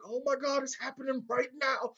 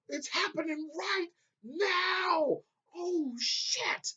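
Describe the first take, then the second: First: Higher, thrilled realization; excited realization. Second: Much higher, slow stretched shout; excited yelling. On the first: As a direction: gasp it out as it dawns on you. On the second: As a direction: yell it out, can't believe it's happening. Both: Retold or imitated. Realizing the scene is happening.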